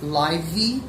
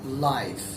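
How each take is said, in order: First: An extra vowel sound follows the final consonant. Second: The word ends cleanly on the final consonant. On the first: The speaker calls it wrong. "We don't say livey" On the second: The speaker calls it right. "we ignore letter E and say life"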